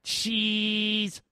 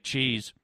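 First: The word is stretched out for seconds. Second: The word is said quickly and short.

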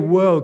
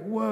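First: It sounds impressed and pleased. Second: It sounds disappointed and exasperated.

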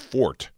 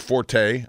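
First: The word is said with one syllable. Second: The word is said with two syllables. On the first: This is the dictionary pronunciation. "Technically, in the dictionary, it's Fort" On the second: This is the everyday sports usage. "some people say Forte"

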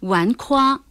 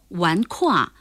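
First: The second syllable is kuā, level tone. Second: The second syllable is kuà, falling tone. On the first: "纨绔还真不能读成纨夸或纨胯" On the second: "纨绔还真不能读成纨夸或纨胯"

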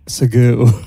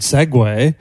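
First: The word ends with an 'oo' sound. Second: The word ends with a 'way' sound. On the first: The speaker calls it wrong. "He was pronouncing it Segu" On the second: The speaker calls it right. "he was saying the word"

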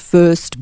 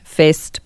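First: The vowel is a long 'er' sound. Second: The vowel is a short 'eh' sound. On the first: "the sound for Nguni speakers is really difficult" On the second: "We're going to substitute that with"

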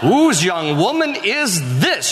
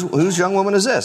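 First: It is said in a flirtatious, excited tone. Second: It is said in a plain, matter-of-fact tone.

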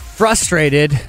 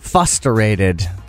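First: The r comes right after the f. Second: The r is moved later, adding a syllable. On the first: The speaker calls it right. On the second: The speaker calls it wrong.

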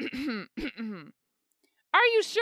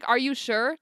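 First: It is said in a put-on Doctor Steele voice. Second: It is said in the speaker's normal voice.

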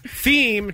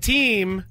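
First: The name begins with a th sound. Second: The name begins with a plain t sound. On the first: The speaker calls it wrong. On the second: The speaker calls it right.

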